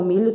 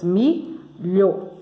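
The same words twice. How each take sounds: First: Said in the usual way. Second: MILHO broken into two syllables with a gap. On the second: Shown as a demonstration. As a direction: pause between the two halves of "milho". ("milho" separado em duas sílabas) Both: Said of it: "milho tem duas sílabas".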